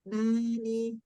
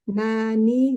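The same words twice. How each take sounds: First: It is said with the nose pinched shut. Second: It is said normally with the nose open. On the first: "kalau ditutup" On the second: "biasa aja"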